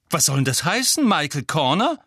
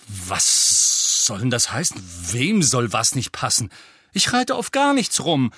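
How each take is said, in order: First: Lauter, höher, empörter Ausruf; Empörung herausrufen. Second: Grummelnd empört. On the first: Ron empört über Schwester. (empört und laut) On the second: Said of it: "rhabarberte Ron die ganze Straße entlang". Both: A narrator's reading.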